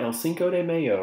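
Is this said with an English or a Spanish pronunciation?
English. It is said with an English-sounding pronunciation. The speaker calls it wrong.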